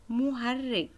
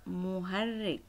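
First: Put-on مهرج said higher and louder, leaning on it for the children; مهرج raised and louder, teacher's first call; emphatic first take. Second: Said in the usual way. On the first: Shown as a demonstration. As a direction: call out مهرج brightly as the model. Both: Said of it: "teacher models then repeats the word".

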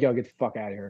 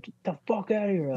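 First: Softer, toned-down retold brush-off; less aggressive. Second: Higher-pitched retold angry dismissal; aggressive. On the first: Older brother shooing the kid from practice, milder. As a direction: wave them away without real aggression. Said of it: "so aggressively, but he'd be like". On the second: Older brother shooing the kid from practice, mock aggressive. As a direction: imitate an aggressive brush-off. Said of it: "probably not so aggressively".

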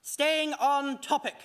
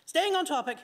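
First: "Staying on topic" drawn out slowly, each word weighed; steady yourself with "Staying on topic"; "Staying on topic" as a slow self-reminder; slow, deliberate. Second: Said in the usual way. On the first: Shown as a demonstration. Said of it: "shaking his head to shake out the nonsense". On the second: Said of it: "Yes, sorry".

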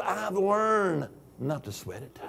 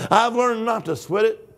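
First: Much softer, almost to himself; quiet aside. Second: Said in the usual way. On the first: Shown as a demonstration. Preacher to congregation, first a soft aside. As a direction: drop the voice way down on it.

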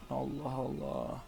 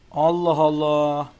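First: Slow, soft drawn-out Allah Allah; baffled sigh. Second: Slow, loud drawn-out Allah Allah; exasperated exclaim. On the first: Gamer quietly baffled at the screen, slow and soft. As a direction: mutter Allah Allah slowly to yourself in disbelief. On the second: Gamer loudly exasperated at his bad throws, slow and loud. Baffled by the race. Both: Real, not acted.

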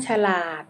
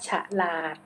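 First: Said in the usual way. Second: ฉลาด split as ฉะ-หลาด; syllable-by-syllable reading. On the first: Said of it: "คำว่าฉลาด". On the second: Shown as a demonstration. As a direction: sound out ฉลาด as ฉะ, then หลาด. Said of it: "อ่านว่าฉลาด".

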